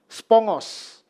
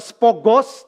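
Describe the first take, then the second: First: An ng sound comes before the g. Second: The g follows the o with no ng. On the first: The speaker calls it right. "tapi spongos" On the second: The speaker calls it wrong. "Jadi bacanya bukan spogos"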